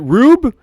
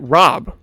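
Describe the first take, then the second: First: The first vowel is a long 'oo' sound. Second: The first vowel is a short 'o' sound. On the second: "Rob, like Robin, is usually one O"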